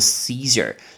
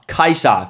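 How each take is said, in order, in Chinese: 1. 这个名字是用英文的发音来读。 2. 这个名字是用中文的发音来读。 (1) "凯撒就叫做Caesar" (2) "听起来是中文"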